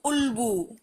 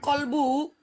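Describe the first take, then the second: First: The word starts with a glottal stop. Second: The word starts with a k sound. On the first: This is how it is said in Egypt and Lebanon. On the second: This is how it is said in standard Arabic.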